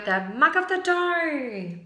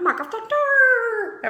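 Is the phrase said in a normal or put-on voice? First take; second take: normal; put-on. First: It is said in a normal speaking voice. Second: It is said in a put-on voice.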